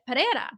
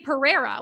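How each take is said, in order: First: The name is said with Portuguese-style sounds. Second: The name is said with English-style sounds. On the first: This is the authentic version of the name. The speaker calls it right. "that's how you say it" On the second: This is the simplified version given to most people. The speaker calls it wrong. "which is what I tell people"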